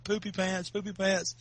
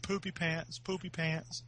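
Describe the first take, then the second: First: Lightly retold taunt at normal volume; slightly raised mock taunt; mild teasing. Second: Soft sing-song taunt, lightly retold; quiet mock taunt; mild teasing. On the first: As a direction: imitate needling a little kid. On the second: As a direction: imitate teasing a little kid, softly. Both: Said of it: "I started making fun of him".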